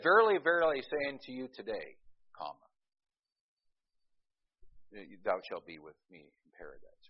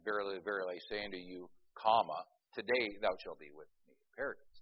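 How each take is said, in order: First: The break comes after the word today. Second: The break comes before the word today.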